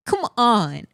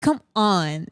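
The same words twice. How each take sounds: First: Pleading come on. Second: Said in the usual way. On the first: Real, not acted.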